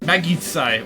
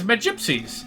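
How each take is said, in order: First: The word is said like 'ma-git-sai'. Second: The word is said like 'ma-gyp-sies'. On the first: The speaker calls it wrong. "I was mentally pronouncing that word as Magitsai" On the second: The speaker calls it right. "what it was supposed to be"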